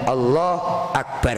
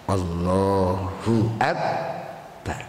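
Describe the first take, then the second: First: The vowel after Allah is dropped. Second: The vowel after Allah is kept. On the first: The speaker calls it wrong. "Gak boleh Allah Akbar, gak boleh" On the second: The speaker calls it right. "Sak harokate, sak hurufe"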